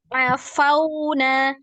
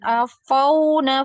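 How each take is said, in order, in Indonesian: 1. 'Fa' diucapkan ringan dengan mulut terbuka. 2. 'Fa' diucapkan tebal dan berat. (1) "Fa-nya dibuka mulutnya biar tidak tebal terdengar ya" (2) "jangan afauna ... Ini jadi tebal ya"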